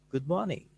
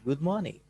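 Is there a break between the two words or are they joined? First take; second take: joined; joined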